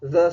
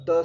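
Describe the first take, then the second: First: द as voiced English th, as in this; soft English th. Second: द as a hard Hindi dental stop. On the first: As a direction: say द like the start of "they". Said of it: "और यहाँ द sound है". (द का अंग्रेज़ी this जैसा उच्चारण) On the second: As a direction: say द hard, tongue stopping the air at the teeth. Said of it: "Hindi का द sound hard होता है". (द का कठोर हिंदी उच्चारण) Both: Shown as a demonstration.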